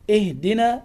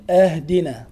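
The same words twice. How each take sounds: First: "اهدنا" starting with i, ihdina; kasra on alif. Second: "أهدنا" starting with a, ahdina; fatha on alif. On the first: Teacher gives correct form, initial i in "اهدنا". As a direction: open "اهدنا" on a short i. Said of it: "لا تقل". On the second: Teacher shows the error, initial a in "أهدنا". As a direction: open "أهدنا" on a clear a. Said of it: "بفتح الألف". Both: Shown as a demonstration.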